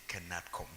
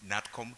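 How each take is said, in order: First: The word begins with a spoken K sound. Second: The word begins directly with an N sound. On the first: The speaker calls it wrong. "many people say Kenatcom" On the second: The speaker calls it right. "K is silent"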